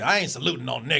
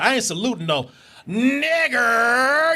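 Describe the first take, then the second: First: The last word is said softly, without the R. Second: The last word is emphasized with a hard R.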